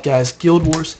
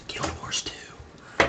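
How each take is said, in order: First: Said in the usual way. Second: Slow breathy whisper of the name. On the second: Acted. Vlogger whispering the game name to viewers, slow whisper. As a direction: hush it like a sacred secret. Excited about Guild Wars two.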